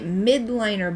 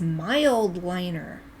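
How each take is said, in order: First: The first part is said without an L sound. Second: The first part is said with an L sound. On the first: The speaker calls it wrong. "I've been calling it midliner" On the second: The speaker calls it right. "but it's mild liner"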